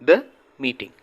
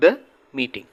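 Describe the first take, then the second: First: 'The' is said with a short 'thuh' sound. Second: The same.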